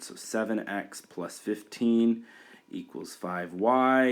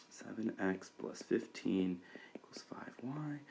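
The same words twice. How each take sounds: First: Said in the usual way. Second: Soft whisper, reading back seven x plus fifteen equals five y; whispered to self. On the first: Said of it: "we're not done yet". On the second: Real, not acted. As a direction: whisper the equation under your breath while writing. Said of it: "We have to divide by five".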